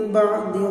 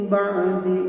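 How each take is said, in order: Both takes have the same delivery.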